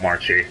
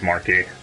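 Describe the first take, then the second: First: The middle consonant is a 'ch' sound. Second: The middle consonant is a 'k' sound. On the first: The speaker calls it wrong. "It's not Marchi" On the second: The speaker calls it right. "It's Marky"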